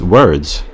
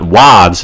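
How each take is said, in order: First: The vowel is an r-colored er sound. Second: The vowel is an open ah with no r. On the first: The speaker calls it right. "It's words" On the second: The speaker calls it wrong. "It's not wads"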